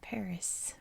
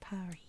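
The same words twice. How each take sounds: First: The word ends with an S sound. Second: The word ends without an S sound. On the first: This is the American pronunciation. "we pronounce it in the same way that we pronounce the S in Paris" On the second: This is the original French pronunciation. "when it's actually Paris"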